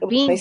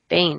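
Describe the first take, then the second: First: The vowel sounds like the one in 'seen'. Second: The vowel sounds like the one in 'rain'. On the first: The speaker calls it wrong. "It's not Bean Books" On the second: The speaker calls it right. "because it's B-A-E-N, Bain"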